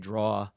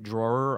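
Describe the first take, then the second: First: The word is said with a New York pronunciation. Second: The word is said with a standard pronunciation. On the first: "that New Jersey, New York thing, ... I say draw" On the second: "instead of saying drawer"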